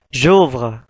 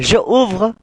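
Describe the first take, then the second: First: The vowel of je drops, joining ouvre. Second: Je is said as its own separate syllable. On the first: The speaker calls it right. "akan tetapi j'ouvre" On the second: The speaker calls it wrong. "bukan je ouvre"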